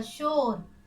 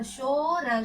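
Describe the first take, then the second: First: Said in the usual way. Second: शोर split as a long शो, then र; शोर stretched into शो... र; sounded out. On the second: Shown as a demonstration. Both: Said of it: "श में ओ की मात्रा".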